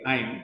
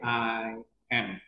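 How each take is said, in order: First: The two words are contracted into one syllable. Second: The two words are said separately and in full. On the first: The speaker calls it wrong. "tidak disingkat sebagai I'm" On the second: The speaker calls it right. "tapi sebagai I am"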